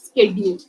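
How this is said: It is said in an Indian English accent. "Indians do pronounce it as schedule ... that is actually wrong"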